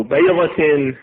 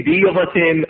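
First: بيضة said "baydatin", open "ay"; fatha on بيضة. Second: بيضة said "beedatin", long "ee"; kasra on بيضة. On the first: Teacher reads the text both ways, fatha on بيضة. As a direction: open the vowel after ب in بيضة to "ay". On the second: Teacher reads the text both ways, kasra on بيضة. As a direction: close the vowel after ب in بيضة to "ee". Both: Shown as a demonstration. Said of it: "تارة بالفتح وأخرى بالكسر".

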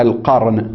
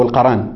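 First: القرن said "al-qarn", no vowel after the r; القرن with a silent-vowel ra: al-QARN; sukun on the ra. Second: القرن said "al-qaran", an a after the r; القرن with two a vowels: qa-ran; fatha on the ra. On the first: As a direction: say القرن as "al-qarn", r running straight into n. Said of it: "بسكون الراء وفتحها". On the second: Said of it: "وفتحها". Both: Shown as a demonstration.

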